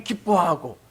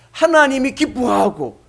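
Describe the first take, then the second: First: Said in the usual way. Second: 하나님이 punched louder, slower; stress on 하나님이. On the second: Shown as a demonstration. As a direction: lean on 하나님이 after the plain 기뻐하고. (하나님이에 힘주어)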